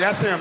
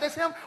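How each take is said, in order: First: It sounds disappointed and resigned. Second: It sounds excited and proud.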